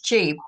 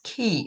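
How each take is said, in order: First: The word begins with a ch sound. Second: The word begins with a k sound. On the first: The speaker calls it wrong. "what you would think is chi, but it's not pronounced that way" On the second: The speaker calls it right. "It's pronounced ki"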